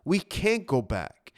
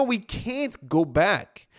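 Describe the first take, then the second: First: "can't" stressed, pitch falling; firm repeat. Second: Each word drawn out slowly; slow emphasis. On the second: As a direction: lean on it slowly, letting it sink in. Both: Real, not acted.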